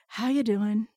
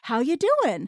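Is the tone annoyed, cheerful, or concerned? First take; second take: annoyed; cheerful. First: It sounds annoyed and merely polite. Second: It sounds happy and engaged.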